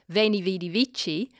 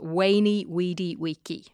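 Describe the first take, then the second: First: The c in vici is a ch sound. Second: The c in vici is a hard k. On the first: This is how modern Italians say it. "the way that Italians pronounce it" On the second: This is how the ancient Romans said it. "the way that he would have said it"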